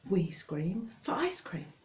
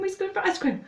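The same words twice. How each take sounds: First: It is said somewhat faster than normal. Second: It is said very fast, nearly tripping up. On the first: "And then you have to say it faster" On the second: "And really fast"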